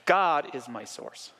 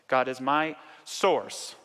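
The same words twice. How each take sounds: First: The word God carries the emphasis. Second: The word source carries the emphasis.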